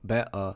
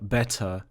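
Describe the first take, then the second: First: The middle t becomes a glottal stop. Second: The middle t is sounded clearly.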